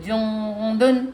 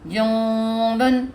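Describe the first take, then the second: The two takes are said the same way.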